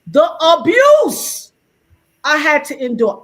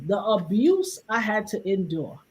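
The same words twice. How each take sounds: First: ABUSE drawn out, high and loud; emphatic outcry. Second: Said in the usual way. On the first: Real, not acted. Speaker recalling backlash to a post, ABUSE stretched high and loud. Repeats phrase for outraged emphasis.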